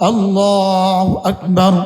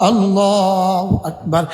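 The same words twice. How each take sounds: Both takes have the same delivery.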